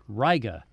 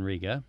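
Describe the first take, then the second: First: The first vowel sounds like 'eye'. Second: The first vowel sounds like 'ee'. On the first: This is how local people say the place name. The speaker calls it right. "The letter I is often pronounced I rather than E" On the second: This is how outsiders say the place name. The speaker calls it wrong. "rather than Riga"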